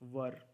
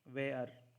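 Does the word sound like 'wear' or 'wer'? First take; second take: wer; wear. First: The vowel is a short 'er' sound. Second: The vowel is a long 'air' sound. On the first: The speaker calls it right. "इसका pronunciation वर है" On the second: The speaker calls it wrong. "वेयर ऐसा pronunciation नहीं है"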